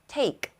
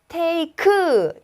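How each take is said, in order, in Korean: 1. 단어가 마지막 자음에서 깔끔하게 끝나요. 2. 마지막 자음 뒤에 모음 소리가 하나 더 붙어요.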